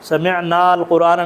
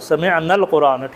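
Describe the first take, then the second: First: The alif vowel is held long before 'l'. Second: The alif vowel is dropped, linking straight to 'l'. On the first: The speaker calls it wrong. "समिअनाल कुरान नहीं होगा" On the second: The speaker calls it right. "ये वाला अलिफ फिर आपने प्रोनाउंस नहीं करना"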